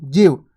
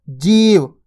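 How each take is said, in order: First: जीव with a quick, short i. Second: जीव with a held, long ee. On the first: Teacher showing learners the small vowel sign, जीव said quickly with short i. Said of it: "इतनी जल्दी से उच्चारण हो रहा है". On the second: Teacher showing learners the big vowel sign, जीव with ee held long. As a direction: linger on the ee in जीव before the v. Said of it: "देखो रुक रहा अपन". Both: Shown as a demonstration.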